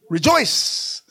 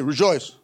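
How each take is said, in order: First: It is said joyfully, with energy. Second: It is said flatly, without joy.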